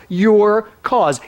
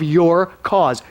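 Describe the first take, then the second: First: "Your" punched, then "cause" falls; stress on YOUR. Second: Said in the usual way. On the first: Shown as a demonstration. Preacher hitting "Your" to tell the congregation they are the cause. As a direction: lean hard on "Your" in "Your cause". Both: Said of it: "Your is the operative".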